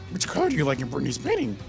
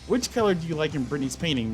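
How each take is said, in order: First: It is read in a put-on character voice. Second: It is read in the reader's ordinary voice. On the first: The speaker calls it right. "I need to read it in my Yoda voice" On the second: The speaker calls it wrong. "I read that in my normal voice"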